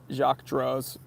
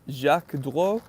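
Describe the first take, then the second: First: It is said with an American accent. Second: It is said with a French accent. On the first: "I'm going to read them in my American accent first" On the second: "then I'm going to attempt to do it in French"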